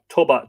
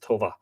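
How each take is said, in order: First: The middle consonant is a b sound. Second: The middle consonant is a v sound. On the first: "T O B A" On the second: "which would probably be pronounced Tova"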